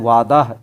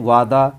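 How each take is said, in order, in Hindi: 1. इसके अंत में साफ़ सुनाई देने वाली h की आवाज़ है। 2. यह सादा लंबा a पर खत्म होता है, कोई h नहीं। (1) "तो ये गलत माना जाता है" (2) "उसकी आवाज़ बिल्कुल अलिफ जैसी आ रही है"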